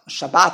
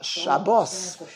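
First: The word ends with a 't' sound. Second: The word ends with an 's' sound. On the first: This is the Hebrew form. "in Hebrew there's no such thing as Shabbos" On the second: This is the Yiddish form. "when you say Shabbos, you're talking Yiddish"

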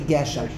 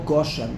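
First: The first vowel sounds like e. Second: The first vowel sounds like o. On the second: This is the Lithuanian-yeshiva way of saying it. "The Litvish Olam, they say more Goshen"

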